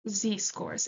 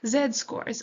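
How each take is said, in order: First: The letter Z is pronounced 'zee', American style. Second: The letter Z is pronounced 'zed', non-American style.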